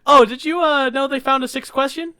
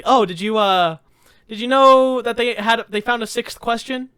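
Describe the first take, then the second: First: Higher and louder bait question; louder teasing setup. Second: Lightly higher, teasing question; mock teasing setup. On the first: Retold or imitated. Retelling the joke setup to Jordan, louder and teasing. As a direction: sell the setup with a grin. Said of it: "I'm like". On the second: Retelling the joke setup to Jordan, mildly teasing. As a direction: dangle the bait with a grin. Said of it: "he was genuinely, like, surprised".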